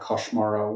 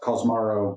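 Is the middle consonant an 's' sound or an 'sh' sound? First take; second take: sh; s. First: The middle consonant is an sh sound. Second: The middle consonant is a plain s sound. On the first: "I think the correct pronunciation with Esperanto is is to kind of uh, to make it more like Koshmaro" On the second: "it's spelled like Cosmaro"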